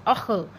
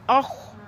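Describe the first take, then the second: First: अख with the end bouncing into "akhuh"; shaken kha. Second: अख ending on a held, raspy "kh" with no vowel after; steady kha. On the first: Teacher warning students how not to read kha, wobbling end on अख. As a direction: add a loose little vowel after the kh of अख. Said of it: "ऐसे नहीं पढ़ना". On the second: Teacher showing students the kha correctly, unshaken end on अख. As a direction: keep the final sound of अख still and sustained. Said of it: "ये हिलने नहीं चाहिए". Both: Shown as a demonstration.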